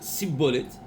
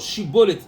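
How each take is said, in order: First: The word begins with an s sound. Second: The word begins with a sh sound. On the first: "ils disent Sin" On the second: "au lieu de dire Shin"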